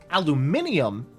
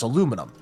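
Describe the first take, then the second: First: It is said in the British pronunciation. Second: It is said in the non-British pronunciation. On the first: It is the form later changed by British scientists. The speaker calls it wrong. "the floppy British scientists" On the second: It is the form from the person who named it. The speaker calls it right. "is from the actual like discoverer of aluminum"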